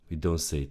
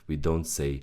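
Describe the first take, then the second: No difference in how they are said.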